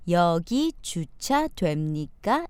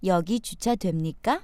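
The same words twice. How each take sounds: First: It is said slowly and carefully. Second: It is said at natural speed.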